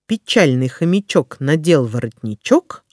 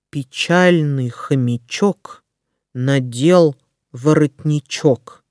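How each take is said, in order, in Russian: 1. Её произносят быстро. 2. Её произносят медленно и внимательно. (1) "А затем я проговорю скороговорку быстро" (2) "Сначала я прочитаю скороговорку медленно"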